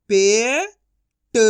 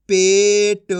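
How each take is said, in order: First: पे rising long, pause, ट; syllable by syllable. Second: Said in the usual way. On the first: Shown as a demonstration. Teacher sounding out for learners, syllable by syllable. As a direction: split पेट into two drawn-out sounds. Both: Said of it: "direct मात्रा का उच्चारण".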